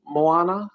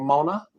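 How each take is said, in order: First: Moana read with a rising tone, unsure of the name; host tries out Moana as a possible reading; one way to say it. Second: Mona, said as MOH-nuh with a rising tone; host offers Mona as the alternative reading; other way to say it. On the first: Host reading the quiz question aloud, trying out Moana. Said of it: "or Mona". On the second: Host correcting the film title for players, tentative Mona. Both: Shown as a demonstration.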